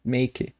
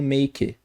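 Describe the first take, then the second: The two takes are said the same way.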